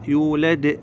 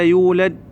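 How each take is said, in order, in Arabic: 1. يُطلق حرف الدال الأخير مع ارتداد يشبه الصدى. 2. ينتهي حرف الدال الأخير فجأة دون إطلاق. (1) "يولد د" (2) "ولا يولد وتسكت لا"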